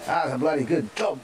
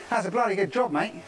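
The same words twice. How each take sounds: First: A light put-on Australian accent; mock Australian praise. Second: Higher, hammed-up Australian, dropping to mate; broad Australian accent. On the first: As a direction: say it like a friendly Aussie, lightly. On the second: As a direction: lay the Australian on thick, ending with mate. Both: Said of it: "That's Australian".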